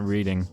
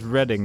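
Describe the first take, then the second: First: The first vowel sounds like in 'reed'. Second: The first vowel sounds like in 'red'. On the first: It means reading a text. The speaker calls it wrong. "not reading" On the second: It names the town. The speaker calls it right. "it's most likely related to the to the place Reading"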